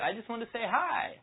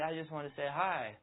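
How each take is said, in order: First: It sounds high-pitched, rising and overexcited. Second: It sounds weak, unsure and hesitant. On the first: The speaker seems overly eager. "Very high-pitched, and it's going up at the end" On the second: The speaker seems indecisive. "the wrong way to do it would be"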